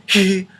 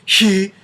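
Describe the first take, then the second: First: The vowel starts with a breathy rush of air. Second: The same.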